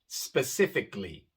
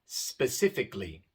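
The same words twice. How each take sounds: No difference in how they are said.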